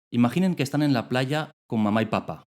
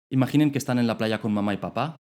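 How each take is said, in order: No difference in how they are said.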